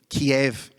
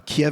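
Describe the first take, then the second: First: The name is said the older, familiar way. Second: The name is said the newer, local way. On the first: This is the speaker's own usual name. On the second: This is how others now call it.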